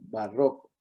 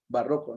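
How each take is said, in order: First: The stress is on the second syllable. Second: The stress is on the first syllable. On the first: The speaker calls it right. "entendemos que es una palabra grave, entonces barroco" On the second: The speaker calls it wrong. "no barroco porque para que fuera barroco tendría que ser una palabra esdrújula"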